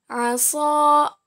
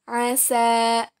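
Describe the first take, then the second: First: Asa ending in a long heavy "soo"; letter sad. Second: Asa ending in a long light "saa"; letter sin. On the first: Teacher contrasts two letters for students, Asa with heavy "so". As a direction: say Asa as "asoo", emphatic S. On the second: Teacher contrasts two letters for students, asa with light "sa". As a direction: say asa with thin S, open vowel. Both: Shown as a demonstration. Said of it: "Perbandingan antara huruf so dan huruf sa".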